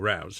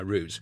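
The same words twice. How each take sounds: First: The vowel sounds like the one in 'out'. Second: The vowel sounds like the one in 'boot'. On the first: This is the other people's pronunciation. "You you go with your routes" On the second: This is the speaker's own British pronunciation. "I'm sticking with the Brit version"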